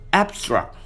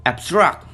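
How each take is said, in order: First: ABstract, first syllable punched high and falling; stress on first syllable. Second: AbSTRACT, louder second syllable with a rising end; stress on second syllable. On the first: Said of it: "stress is placed in the first syllable". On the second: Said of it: "stress is placed in the second syllable". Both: Shown as a demonstration.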